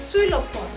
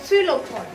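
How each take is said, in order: Both takes have the same delivery.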